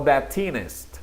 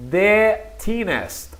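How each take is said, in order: First: Slow "the thinnest" with "the" as "da". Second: Slow "the thinnest" with "the" as "de". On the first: Teacher offers students the other option, article pronounced "da". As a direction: say "da thinnest", spaced out slowly. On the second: Teacher models the superlative for students, article pronounced "de". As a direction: say "de thinnest", spaced out slowly. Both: Shown as a demonstration. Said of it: "el artículo de o da".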